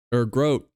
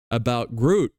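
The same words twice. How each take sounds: First: "Groat" said with a long oh vowel, rhymes with boat; the right name "Groat", like goat; correct name. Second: "Groot" said with an oo vowel, mispronounced; the mistaken "Groot", like the tree; wrong name. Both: Shown as a demonstration. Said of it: "That's his name".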